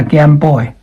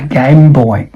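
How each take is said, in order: First: Put-on GAME said as "gam" in GAME BOY; flat short vowel in GAME; wrong short A. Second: Put-on GAME said as "gaym" in GAME BOY; careful "gaym boy" for GAME BOY; long A. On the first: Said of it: "not game". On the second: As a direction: glide the A in GAME. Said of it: "The vowel is A". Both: Shown as a demonstration.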